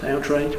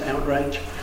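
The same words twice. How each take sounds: First: The word is said in a neutral accent. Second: The word is said in a Scottish accent.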